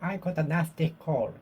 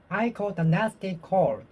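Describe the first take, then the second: No difference in how they are said.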